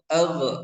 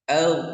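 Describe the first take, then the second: First: The gh sound ends with a bouncing release. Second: The gh sound is held without a bounce. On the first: The speaker calls it wrong. "tidak boleh ag, ag, ag. Nah, salah" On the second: The speaker calls it right. "Tapi harus menempel"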